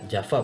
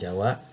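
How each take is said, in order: First: The middle consonant is a V sound. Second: The middle consonant is a W sound. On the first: The speaker calls it right. "dibaca Java" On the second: The speaker calls it wrong. "bukan Jawa"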